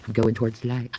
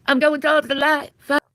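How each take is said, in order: First: Said in the usual way. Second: High airy ghost floating away; mock ghost voice. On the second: Streamer playing a dying ghost, high and airy. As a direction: drift off toward the light as a ghost.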